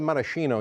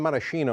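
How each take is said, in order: First: It has an American pronunciation with sh. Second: The same.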